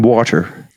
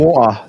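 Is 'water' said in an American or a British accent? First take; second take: American; British. First: The word is said in an American accent. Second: The word is said in a British accent. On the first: This is what the children actually say from watching videos. "they're saying" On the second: This is how the children would be expected to say it. "they're not saying"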